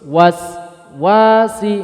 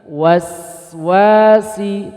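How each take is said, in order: First: The word is split with a break inside. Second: The word is said smoothly without a break. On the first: The speaker calls it wrong. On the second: The speaker calls it right.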